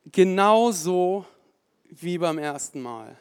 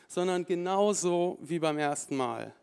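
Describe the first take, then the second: First: Preacher repeating a point, "Genauso" slow and loud; stress on genauso. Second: Said in the usual way. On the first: Real, not acted. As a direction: lean hard on "Genauso", stretch it out.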